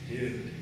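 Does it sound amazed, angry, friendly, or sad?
sad. It sounds sad and down.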